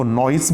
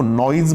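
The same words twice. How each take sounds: First: नॉइज ending in a hissed S; students' pronunciation of noise. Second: नॉइज ending in a voiced Z; pronunciation with Z. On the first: Teacher quoting how many students say it, नॉइज with an S ending. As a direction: say नॉइज with a final s sound, "noys". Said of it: "बहुत सारे बच्चे इसको नॉइज बोलते हैं". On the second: Teacher quoting how other people say it, नॉइज with a Z ending. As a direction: say नॉइज with a final z sound, "noyz". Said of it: "कई लोग इसको नॉइज बोलते हैं". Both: Shown as a demonstration.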